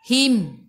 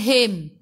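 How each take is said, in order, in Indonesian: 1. M di akhir kata berakhir dengan bibir dirapatkan. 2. M di akhir kata berakhir tanpa bibir tertutup rapat. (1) "bila berhenti tutup mulut rapatkan bibir" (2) "bukan him"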